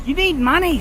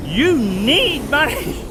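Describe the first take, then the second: First: Said in the usual way. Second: "You need money" slowed right down, rising on "You"; slow emphatic repeat. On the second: Shown as a demonstration. Telling viewers what they need in New Zealand, slow and emphatic. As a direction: lean on "You" and stretch "You need money" slowly.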